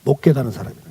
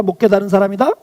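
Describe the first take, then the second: First: 못 stressed, falling and lower, settled answer; firm answer. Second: Put-on 사람이다 rising like a question to the children; asking question. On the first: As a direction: answer it yourself: 못 깨달은 사람이다 dropping low and final. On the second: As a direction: ask 못 깨달은 사람이다 with the tune lifting on 사람이다. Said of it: "하나님의 사랑과 은혜를 깨달은 사람이다". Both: Shown as a demonstration.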